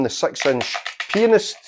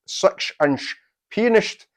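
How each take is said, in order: First: Said in the usual way. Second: Slow Sean Connery impression, s slurred to sh; a light, slow Sean Connery lisp with pianist said as pianisht; Scottish Sean Connery drawl, a touch higher and slower; Sean Connery accent. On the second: Shown as a demonstration. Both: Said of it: "my best Sean Connery accent".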